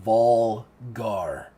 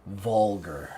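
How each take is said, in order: First: "Volgar" louder, in two drawn-out syllables; emphatic repetition. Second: Said in the usual way. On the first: Acted. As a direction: weigh both halves of "Volgar". Siggy repeats the name weightily.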